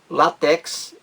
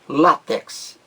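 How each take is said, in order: First: The stress is on the last syllable. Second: The stress is on the first syllable. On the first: The speaker calls it wrong. "estou pronunciando de forma errada" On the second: The speaker calls it right. "A sílaba mais forte aí é a primeira"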